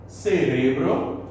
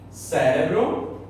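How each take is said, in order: First: Cerebro stressed on the middle syllable, ce-RE-bro, slow; Spanish stress. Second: Cérebro stressed on the first syllable, CÉ-re-bro, slow; Portuguese stress. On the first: Teacher giving the Spanish version, slow and deliberate. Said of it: "em espanhol". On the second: Teacher contrasting Portuguese with Spanish stress, slow and clear. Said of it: "em português". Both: Shown as a demonstration.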